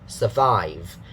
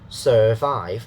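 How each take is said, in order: First: The first vowel is a short, weak sound. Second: The first vowel is a full 'er' sound. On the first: The speaker calls it right. "it's not sir, it's sur" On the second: The speaker calls it wrong. "that is a bad version. Actually, they use another sound, the er sound"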